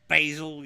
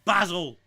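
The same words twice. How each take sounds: First: The word is said the American way. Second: The word is said the British way. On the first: The speaker calls it wrong. "not basil" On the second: The speaker calls it right. "it's fucking basil"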